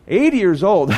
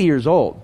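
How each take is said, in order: First: Eighty lifted higher and leaned on, falling after; stress on Eighty. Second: Said in the usual way. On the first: Shown as a demonstration. Preacher marveling at Moses' age, stressing Eighty. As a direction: repeat it, hitting Eighty.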